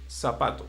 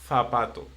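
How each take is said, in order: First: The z is said like an English s. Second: The z is said like an English th. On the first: This is how it is said in Latin America. "just like an S and not like a th" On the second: This is how it is said in Spain. "in Spain, they will say ... they will pronounce like zapato"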